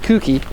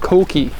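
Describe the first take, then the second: First: The first vowel sounds like 'oo'. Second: The first vowel sounds like 'oh'. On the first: The speaker calls it wrong. "Kuki would be a mispronunciation" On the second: The speaker calls it right. "it's called Koki"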